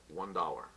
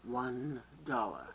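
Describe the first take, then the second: First: Deadpan clerk. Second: Very slow, low deadpan "One dollar"; slow deadpan clerk. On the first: Acted. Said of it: "And the guy says". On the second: Shown as a demonstration. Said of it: "Now you".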